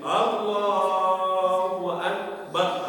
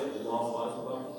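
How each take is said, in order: First: The phrase is drawn out long. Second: The phrase is said short and quick.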